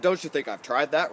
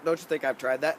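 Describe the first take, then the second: First: Mildly indignant pushback; a hint of put-upon protest; defensive retort. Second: Said in the usual way. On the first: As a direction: argue back at the coach, a touch defensive. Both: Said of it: "I'm gonna argue for a second".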